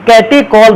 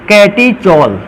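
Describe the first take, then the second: First: The middle consonant is a 'k' sound. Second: The middle consonant is a 'ch' sound. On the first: "कैटेकॉल भी इसको पढ़ते हैं" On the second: "ऐसे फॉर्मूले को कहते हैं कैटीचॉल"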